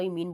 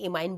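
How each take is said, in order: First: The word ends with a 'meen' sound. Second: The word ends with a 'mine' sound. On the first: "कुछ लोग इमीन बोलते हैं" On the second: "इमाइन बोल लो"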